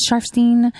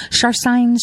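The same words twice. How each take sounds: First: Sharfstein with the last syllable like "steen"; alternative pronunciation. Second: Sharfstein with the last syllable like "stine"; alternative pronunciation. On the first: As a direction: say Sharfstein ending in a long "ee" vowel, rhyming with "seen". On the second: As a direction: say Sharfstein ending in a long "eye" vowel, rhyming with "fine". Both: Shown as a demonstration. Trying two pronunciations of a surname.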